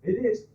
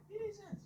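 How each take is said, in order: First: Loud, raised, emphatic confirmation; mock working bloke. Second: Very high, soft squeak of disbelief; mock starstruck onlooker. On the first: Ordinary working bloke walking past the star, loud and blunt. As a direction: belt it out as a passing bloke. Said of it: "your average ordinary working bloke walks past". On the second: Someone sees [name], mock disbelief. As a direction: imitate a fan in a tiny high voice. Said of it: "someone sees [name] and says".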